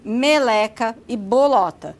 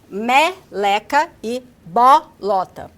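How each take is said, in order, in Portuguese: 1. As vogais antes da sílaba tônica são fechadas. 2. As vogais antes da sílaba tônica são abertas. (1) "o que é diferente dos alunos da capital que falam" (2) "o aluno produz as vogais médias baixas nessas sílabas"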